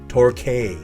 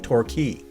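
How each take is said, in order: First: The last syllable does not sound like key. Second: The last syllable sounds like the word key. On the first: This is how the local street is said. "we pronounce this street here in Gordon Head Torquay" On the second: This is how the place in England is said. "like a key, right?"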